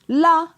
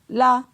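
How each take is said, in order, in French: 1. La syllabe est prononcée sur un ton haut. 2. La syllabe est prononcée sur un ton moyen. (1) "ton haut" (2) "ton moyen"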